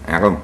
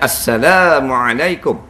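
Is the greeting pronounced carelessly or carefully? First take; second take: carelessly; carefully. First: The greeting is pronounced loosely and carelessly. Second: The greeting is pronounced fully and carefully. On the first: The speaker calls it wrong. "Bunyi gitu" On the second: The speaker calls it right. "Hak betulnya"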